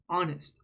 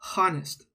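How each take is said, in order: First: The word begins directly with a vowel sound. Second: The word begins with an audible h sound. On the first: The speaker calls it right. "It's honest" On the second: The speaker calls it wrong. "We don't say the H sound. It's not honest. That's not how you say it"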